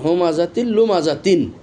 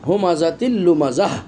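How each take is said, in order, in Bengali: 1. শেষ শব্দটি -tin ধ্বনিতে শেষ হয়। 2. শেষ শব্দটি -h ধ্বনিতে শেষ হয়। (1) "যদি আমি এখানে না থামি" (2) "যদি আমি এখানে থেমে যাই তাহলে গোলতাটাকে হা হিসেবে পড়তে হবে"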